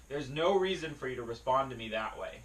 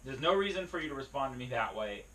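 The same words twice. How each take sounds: The two takes are said the same way.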